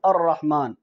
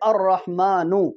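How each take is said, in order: First: The word ends on the bare n consonant. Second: The word ends with a short u vowel. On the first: "इस पेश को ख़त्म करें तो क्या पढ़ेंगे" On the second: "ये जो नू ये पेश है ना"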